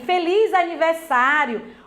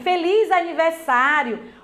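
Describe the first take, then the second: First: It is said joyfully, as an exclamation. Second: It is said joyfully, as an exclamation.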